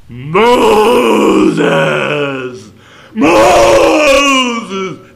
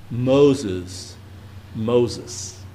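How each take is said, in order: First: Huge, high, shouted call from above; God's voice from the old movie, calling Moses in a huge shout; booming movie God voice. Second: Lower, soft calling of the name; God tenderly naming Moses, not booming; gentle God voice. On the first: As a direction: thunder the name like a movie God. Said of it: "That's the voice of God". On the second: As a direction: call him gently, protectively. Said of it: "God is protecting Moses". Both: Retold or imitated.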